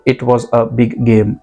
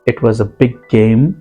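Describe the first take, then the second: First: The two g sounds are said separately. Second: The two g sounds merge into one. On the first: The speaker calls it wrong. "कहीं तो भी ऐसे लग रहा है कि आप अटक रहे हो।" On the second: The speaker calls it right. "इसे हमने मिलाया है और इस पर थोड़ा सा स्ट्रेस देना है।"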